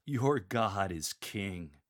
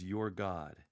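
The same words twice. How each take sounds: First: Slow, with "Your God" stressed; proclaim loudly. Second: "your God" marked but said flatly; emphasize your God. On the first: Lector proclaiming to the congregation, slow, stress on "Your God". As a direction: point the words at the listeners. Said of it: "Then proclaim loudly". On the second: Teacher naming the words, "your God" plainly. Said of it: "Emphasize the words". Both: Shown as a demonstration.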